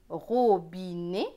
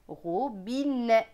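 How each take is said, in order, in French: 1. La voyelle finale est fermée, comme é. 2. La voyelle finale est ouverte, comme è. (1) "soit né" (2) "soit net"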